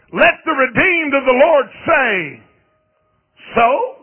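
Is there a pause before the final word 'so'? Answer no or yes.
yes. There is a break before a separate 'so'. Believers should answer bad news with a defiant 'so what'. "why can't you just say it like this?"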